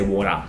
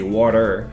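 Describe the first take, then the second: First: It is said in an Australian accent. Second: It is said in an American accent. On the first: "we say water" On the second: "They say water"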